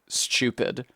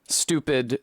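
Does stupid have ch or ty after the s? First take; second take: ch; ty. First: The t is turned into a ch sound. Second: The t is followed by a y sound. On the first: "the T gets turned into a C H" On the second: "with a tew sound"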